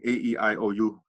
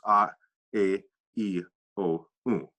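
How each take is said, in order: First: The vowels are said as English letter names. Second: The vowels are said as pure vowel sounds. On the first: The speaker calls it wrong. "instead of saying A E I O U" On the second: The speaker calls it right. "remember this, that it's"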